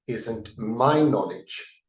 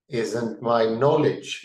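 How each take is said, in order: First: The stress falls on the word my. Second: The stress falls on the word knowledge. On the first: The knowledge belongs to the speaker alone. "instead of saying" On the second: The knowledge itself matters, not whose it is. "give a little different intonation"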